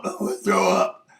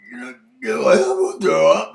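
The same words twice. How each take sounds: First: Said in the usual way. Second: Mock nausea. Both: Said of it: "And she goes".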